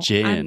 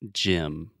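First: The word starts with a soft 'zh' sound. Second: The word starts with a hard 'j' sound. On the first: The speaker calls it wrong. "Gin does not exist in English" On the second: The speaker calls it right. "the correct pronunciation is gym"

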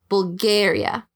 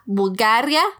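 First: The word is said with English vowel sounds. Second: The word is said with Spanish vowel sounds. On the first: "pero en inglés es Bulgaria" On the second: "La Bulgaria"

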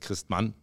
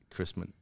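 First: The name is said with a German pronunciation. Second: The name is said with an English pronunciation. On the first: This is the original form of the name. "If you say it in German" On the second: This is how most people say the name. "everybody says Christmann"

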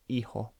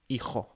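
First: The J sound is soft and light. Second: The J sound is harsh and throaty.

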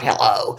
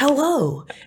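First: It is said in a cold, tense way. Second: It is said in a warm, friendly way.

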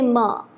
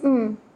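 First: The m sound is followed by an added vowel. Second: The m sound is said alone with no vowel. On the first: The speaker calls it wrong. "they say ma, and that is not a pure sound" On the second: The speaker calls it right. "the sound is actually just m"

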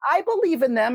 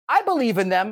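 First: It is said in a high-pitched, cautious voice. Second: It is said at normal speaking pitch. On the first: The belief is held with some caution. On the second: The belief is stated plainly.

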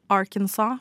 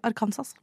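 First: The word is pronounced the English way. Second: The word is pronounced the Norwegian way. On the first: "så sier jeg ikke det" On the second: "jeg sier Arkansas"

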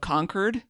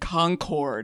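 First: Pronounced the way locals of the area say it. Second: Pronounced the way outsiders to the area say it. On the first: The speaker is from the area. The speaker calls it right. "instead of Concord" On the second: The speaker is not from the area. The speaker calls it wrong. "you could tell people that weren't there because they said Concord"

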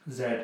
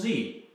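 First: It is said the English way, zed. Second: It is said the American way, zee.

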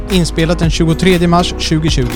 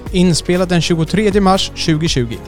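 The two takes are said the same way.

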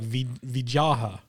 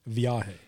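First: The name is pronounced in a distorted, mangled way. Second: The name is pronounced in the standard way. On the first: The speaker calls it wrong. "you went like Vijaha" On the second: The speaker calls it right.

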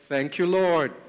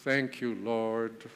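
First: It is said warmly, with a smile. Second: It is said stiffly, in a formal way. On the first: The thanks is heartfelt. The speaker calls it right. "can you smile at God right now and really thank him" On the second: The thanks is only a routine. The speaker calls it wrong. "Not some formal"

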